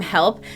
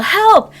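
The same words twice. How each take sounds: First: Said in the usual way. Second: High, louder yell of Help. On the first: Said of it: "I wanted to scream". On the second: Retold or imitated. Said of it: "trying to yell".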